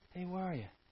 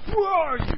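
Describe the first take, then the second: First: It is said in a gentle tone. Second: It is said in an angry tone.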